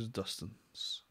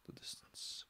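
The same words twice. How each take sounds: First: Said in the usual way. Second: Eerie hushed whisper; whispered echo. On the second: Acted. Reader echoing the article's line, whispered echo. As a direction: whisper it, trailing into nothing.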